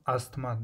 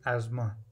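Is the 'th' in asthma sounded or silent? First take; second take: sounded; silent. First: The 'th' sound in the middle is pronounced. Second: The 'th' sound in the middle is silent. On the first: The speaker calls it wrong. "This is not asthma" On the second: The speaker calls it right. "this is asthma"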